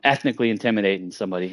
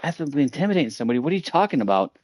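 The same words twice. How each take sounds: First: Said in the usual way. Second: Fast, higher, disbelieving repeat; incredulous echo. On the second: Retold or imitated. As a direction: throw the accusation back in disbelief.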